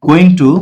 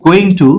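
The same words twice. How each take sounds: The two takes are said the same way.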